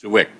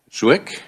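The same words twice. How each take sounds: First: Zwick repeated after being told, without the questioning rise; corrected pronunciation. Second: Zwick said as one syllable with a questioning rise; unsure pronunciation. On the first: Chair repeating the name just supplied, corrected Zwick. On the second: Chair unsure of the name of the speaker being called, tentative Zwick. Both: Real, not acted. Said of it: "How do I pronounce that?".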